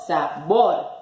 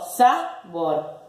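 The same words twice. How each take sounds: First: Slow "sabor" with final bor punched; stress on BOR. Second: Slow "sabor" wrongly stressed on sa. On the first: Teacher giving the correct stress, "sabor" stressed on bor. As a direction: split "sabor" and land on BOR. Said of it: "Digo sabor". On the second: Teacher testing the first syllable, "sabor" stressed on sa. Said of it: "¿Sa o bor?". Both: Shown as a demonstration.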